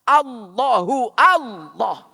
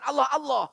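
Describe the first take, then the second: First: The first word ends with an added 'u' vowel. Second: The first word ends without an added vowel. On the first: The speaker calls it right. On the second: The speaker calls it wrong. "bukan Allah Allah"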